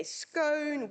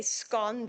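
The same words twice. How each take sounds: First: Scone said with a long o, like "scohn"; scone with the long English o, drawn out. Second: Scone said with a short o, like "scon"; scone with the short South African o. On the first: Speaker mimicking the English way of saying scone. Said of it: "they say scone". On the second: South African colleague contrasting scone. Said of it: "we'll say scone". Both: Shown as a demonstration.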